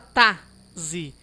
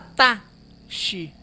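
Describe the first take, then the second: First: The x is said as a z sound. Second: The x is said as an sh sound. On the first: "Não fala tá, zi" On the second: "Não fala tá, xi"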